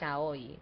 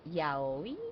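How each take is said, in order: First: The word begins with a sh sound. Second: The word begins with a y sound. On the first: This is how Spanish speakers say it. "in Spanish we call it shaoi, like sh" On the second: This is how English speakers say it. "the way that you all pronounce it is like ya yaoi"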